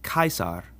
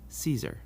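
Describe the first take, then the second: First: The name begins with a hard k sound. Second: The name begins with a soft sound, not k. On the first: The speaker calls it right. "this name is pronounced Caesar" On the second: The speaker calls it wrong. "not Caesar"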